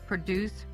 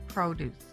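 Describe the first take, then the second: First: The stress is on the last syllable. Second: The stress is on the first syllable. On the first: It is a verb meaning to make something. "Produce is a verb with the accent on the last syllable" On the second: It is a noun meaning harvested fruits and vegetables. "Produce is a noun describing a harvest of fruits and vegetables, and the accent is on the first syllable"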